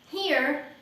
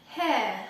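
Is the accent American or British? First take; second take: American; British. First: It is said in an American accent. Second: It is said in a British accent.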